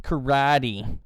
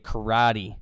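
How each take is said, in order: First: It is said with an English pronunciation. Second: It is said with an English pronunciation.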